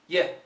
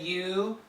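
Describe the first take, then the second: First: The word ends in an eh vowel. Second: The word ends in a full oo vowel. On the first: "some say yeah" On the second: "Some Americans say you"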